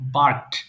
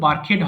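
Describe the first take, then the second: First: The ending is a bare consonant, no extra syllable. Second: The ending adds an extra vowel syllable. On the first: The speaker calls it right. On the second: The speaker calls it wrong.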